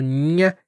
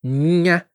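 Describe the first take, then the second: No difference in how they are said.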